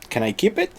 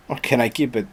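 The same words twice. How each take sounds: First: "Can I keep it?" lifted high and rising on "it"; pleading high question. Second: "or can I keep it?" with a falling tune and weight on "keep"; retry it level, leaning on "keep"; flatter retake. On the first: Asking Mister Germany to keep Hamburg, high pleading rise. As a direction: ask it up high, like a hopeful kid. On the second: Rephrasing the plea to Mister Germany, falling on keep. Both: Retold or imitated.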